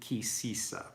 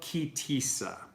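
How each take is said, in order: First: The second word begins with an s sound. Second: The second word begins with a t sound.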